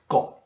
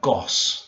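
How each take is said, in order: First: The final consonant is soft and T-like. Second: The final consonant is a clear S. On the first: The speaker calls it right. "So this would be like got" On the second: The speaker calls it wrong. "It's not like goss"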